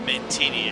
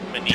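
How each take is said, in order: First: A t sound comes before the second n. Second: No t sound comes before the second n. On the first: The speaker calls it wrong. "it is not Mantini" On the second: The speaker calls it right. "it's Manini"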